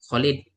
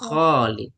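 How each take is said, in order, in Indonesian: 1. Vokal pertama diucapkan pendek. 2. Vokal pertama diucapkan panjang. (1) "kalau kita bilang kan Khalid" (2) "Aslinya Khalid panjang"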